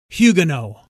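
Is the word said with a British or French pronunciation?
British. It is said the way the British say it.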